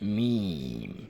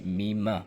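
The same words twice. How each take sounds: First: The word is lengthened and ends softly. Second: The final m is cut off with a sudden jerk. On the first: The speaker calls it right. "बल्कि मीम, एक अलिफ के बराबर खींच कर नरमी से पढ़े" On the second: The speaker calls it wrong. "उसमें झटका ना हो, जैसे मीम ना हो"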